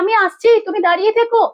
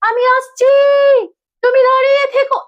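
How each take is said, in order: First: It is said plainly, like normal calling speech. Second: It is said dramatically, drawn out and exaggerated. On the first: The speaker calls it right. "তাহলে আমি বলি" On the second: The speaker calls it wrong. "এইটা হবে না। এটা হচ্ছে না নাটকীয়র মধ্যে।"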